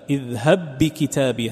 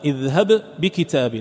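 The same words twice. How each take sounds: First: The two b sounds merge into one doubled b. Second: The first b is released separately with an echo. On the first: "فإذا قرأت بالإدغام" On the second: "بغير إدغام اذهب تظهر القلقلة"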